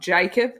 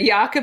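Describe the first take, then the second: First: The name is said with an Australian pronunciation. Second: The name is said without the Australian pronunciation. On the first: The speaker calls it wrong. "that's a bit of an Aussie twang" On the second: The speaker calls it right. "for Jakob, not Jacob"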